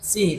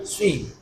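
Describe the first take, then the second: First: The s is plain and light, lips unrounded. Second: The s is heavy, lips rounded, with a whistle. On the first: The speaker calls it wrong. "bukan bukan si" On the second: The speaker calls it right. "tapi si. Ada mencucunya dan ada siulnya"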